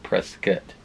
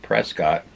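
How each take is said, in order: First: The last syllable sounds like 'cut'. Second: The last syllable sounds like 'cot'. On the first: The speaker calls it right. "I guess it's pronounced Prescott. There's no damn U in the in the name" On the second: The speaker calls it wrong. "I'd been calling"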